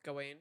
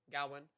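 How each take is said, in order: First: "Gawain" with a long "wayne" ending; GAWAIN as Go-WAIN. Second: "Gawain" with a short, weak second syllable; GAWAIN as GAH-wun. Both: Real, not acted.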